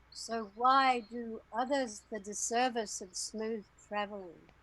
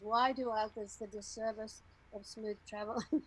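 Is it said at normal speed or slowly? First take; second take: slowly; normal speed. First: It is said slowly. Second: It is said at normal speed.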